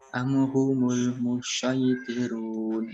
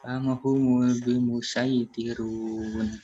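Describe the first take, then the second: First: The s sound is emphatic and heavy. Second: The s sound is plain, not emphatic. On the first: "itu pakai shad" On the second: "Kalau pakai sin"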